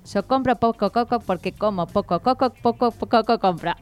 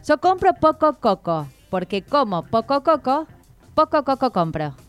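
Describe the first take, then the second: First: It is said quickly. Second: It is said slowly.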